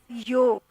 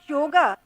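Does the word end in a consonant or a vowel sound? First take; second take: consonant; vowel. First: The word ends on the consonant g. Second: The word ends with an added vowel sound. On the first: This is the traditional Indian pronunciation. "we naturally pronounce it as yog" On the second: This is the internationally popular English form. "The English word yoga is simply a transliterated version"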